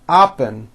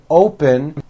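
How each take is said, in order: First: The first vowel is an open 'ah' sound. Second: The first vowel is a rounded 'oh' sound. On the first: The speaker calls it wrong. "the O sounds like an ah" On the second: The speaker calls it right. "the word open"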